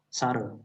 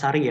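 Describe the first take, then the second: First: The final vowel is a back unrounded sound. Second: The final vowel is a front 'ee' sound. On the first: The speaker calls it right. "I-nya tidak ada titiknya, itu sare" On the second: The speaker calls it wrong. "bukan sari ya"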